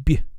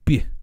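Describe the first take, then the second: First: The tongue presses the hard palate during B. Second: The same.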